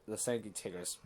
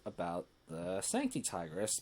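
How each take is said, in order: First: "Tigris" said with a short "tig" sound, TIG-ris; "Sancti Tigris" with the first syllable of "Tigris" like "tig". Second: "Tigris" said with a long "tie" sound, TIE-gris; "Sancti Tigris" with the first syllable of "Tigris" like "tie". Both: Real, not acted. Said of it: "why do I pronounce it the Sancti Tigris".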